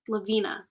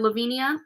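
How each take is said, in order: First: The name ends with a short 'nah' sound. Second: The name ends with a 'nee-ah' sound. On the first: The speaker calls it right. "I bet that's how you say it" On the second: The speaker calls it wrong. "I keep saying Lavinia because"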